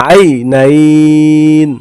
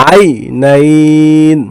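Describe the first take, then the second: No difference in how they are said.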